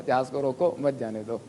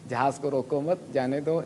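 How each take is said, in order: First: "روکو" closes the first phrase, then "مت جانے دو" together; pause after روکو. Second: "روکو مت" held together, short break before "جانے دو"; pause after مت. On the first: Teacher repeating his own teacher's example, pause after "روکو". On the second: Teacher repeating his own teacher's example, pause after "مت". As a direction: break the phrase after "مت", rising there. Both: Shown as a demonstration. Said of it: "تو وقف".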